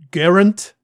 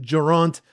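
First: The name is said the plain English way. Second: The name is said the French way.

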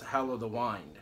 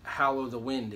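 First: 'Wind' has a long vowel, rhyming with 'find'. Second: 'Wind' has a short vowel, rhyming with 'pinned'. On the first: The speaker calls it right. "it's pronounced" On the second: The speaker calls it wrong. "It is not pronounced"

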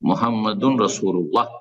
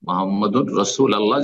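First: 'Rasul' and 'Allah' are joined into one word. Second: 'Allah' is said as a separate word after 'rasul'. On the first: The speaker calls it right. "যদি শুদ্ধ পড়তে চান" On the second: The speaker calls it wrong. "এটা ভুল উচ্চারণ"

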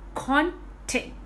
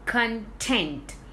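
First: The stress is on the first syllable. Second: The stress is on the second syllable.

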